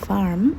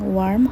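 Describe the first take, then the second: First: The word begins with a V sound. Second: The word begins with a W sound. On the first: The speaker calls it right. "ডাব্লুকে ভি এর মতো উচ্চারণ করে, সুতরাং ওয়ার্ম হবে ভার্ম" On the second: The speaker calls it wrong. "ডাব্লুকে ভি এর মতো উচ্চারণ করে, সুতরাং ওয়ার্ম হবে ভার্ম"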